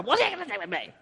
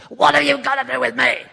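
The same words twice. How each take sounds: First: Higher, gentle, not hostile; gentle version. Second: Much higher, louder hostile cry; demoniac shouting. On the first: Shown as a demonstration. Jesus speaking to his mother, gentle and kind. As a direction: say it kindly, the way a son would. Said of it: "I don't think he said to his mother". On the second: Acted. Demoniac confronting Jesus, a loud hostile high cry. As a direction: shout it like a demon-possessed man. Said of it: "I don't think he said it like that".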